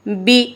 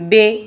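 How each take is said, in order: First: The vowel is a clear 'ee' sound. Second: The vowel is an open 'ay'-like sound. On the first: The speaker calls it right. "कैसा पढ़ना है?" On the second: The speaker calls it wrong. "बे ऐसे नहीं पढ़ना"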